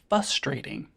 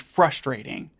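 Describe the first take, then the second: First: The R after the F is dropped. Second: The R after the F is pronounced. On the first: The speaker calls it wrong. "people say frustrating" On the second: The speaker calls it right. "There's an R in there"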